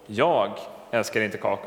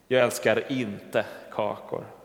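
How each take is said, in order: First: The word jag carries the stress. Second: The word kakor carries the stress. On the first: Someone else, not the speaker, loves cookies. "då kan det låta som att det är särskilt jag älskar inte kakor, men någon annan" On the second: The speaker loves something other than cookies. "Men betoningen kan få tänka mig att jag älskar något annat"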